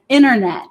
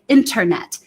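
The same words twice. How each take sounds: First: The T sound is weak or dropped. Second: The T sound is pronounced clearly and strongly. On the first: "the T in American English, I would say something like internet" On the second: "I'm going to pronounce that T a little bit more strongly"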